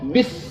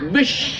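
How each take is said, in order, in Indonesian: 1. Kata ini berakhir dengan bunyi s biasa. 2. Kata ini berakhir dengan bunyi sh. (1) "Harus bis" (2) "Jangan dibaca bish. Tak sah Fatihahnya"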